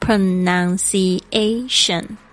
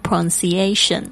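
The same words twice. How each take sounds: First: The word is said with all five syllables. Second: The word is said with only four syllables. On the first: The speaker calls it right. "大家特别注意一下五个音节" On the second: The speaker calls it wrong. "他说 Lily 你就念四个音节"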